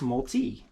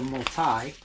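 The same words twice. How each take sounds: First: The last syllable sounds like 'tee'. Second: The last syllable sounds like 'tie'. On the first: "T E E, like golf tee" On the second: "T I E T Y"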